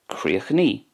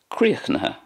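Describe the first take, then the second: First: It ends in a long 'ee' vowel. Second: It has three full syllables ending in 'ha'. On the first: "In Connacht then" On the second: "that's the way it's pronounced in Munster"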